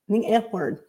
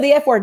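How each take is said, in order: First: It is said slowly. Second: It is said quickly.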